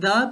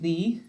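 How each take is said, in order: First: It is said the way used before consonants. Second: It is said the way used before vowels. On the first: "It sounds more like the before a consonant" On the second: "more like the before a vowel"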